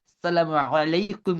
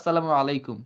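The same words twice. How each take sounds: First: The greeting is said with exaggerated Arabic-style sounds. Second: The greeting is said plainly, without exaggeration. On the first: The speaker calls it wrong. "ওই অ্যারাবিক করতে গিয়ে আমরা বলি" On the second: The speaker calls it right. "Normal হচ্ছে"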